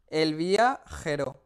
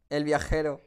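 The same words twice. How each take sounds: First: Slow drawn out. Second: Said in the usual way. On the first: Shown as a demonstration. Repeats the name slowly.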